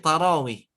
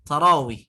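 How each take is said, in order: Both takes have the same delivery.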